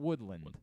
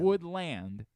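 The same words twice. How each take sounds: First: The second part, land, is reduced and weak. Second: Both parts, wood and land, are said fully. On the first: The speaker calls it wrong. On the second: The speaker calls it right. "you pronounce both parts"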